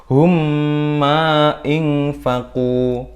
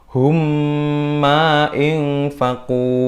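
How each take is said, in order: No difference in how they are said.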